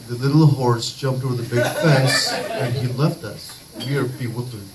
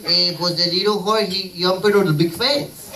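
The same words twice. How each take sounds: First: Fake British accent. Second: Put-on thick Mexican accent. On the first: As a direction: switch into a mock British accent, lower and measured. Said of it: "I'm doing it in your British accent". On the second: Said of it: "Mexicans with this thick accent".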